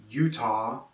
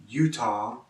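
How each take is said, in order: Both takes have the same delivery.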